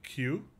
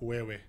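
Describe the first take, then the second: First: The word is one short syllable. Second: The word is stretched over several syllables. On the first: This is the normal spoken form. "so how I pronounce it? Like Q" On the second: This is a literal reading of the spelling. "But like how my brain reads it"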